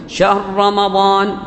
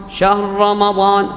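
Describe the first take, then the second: No difference in how they are said.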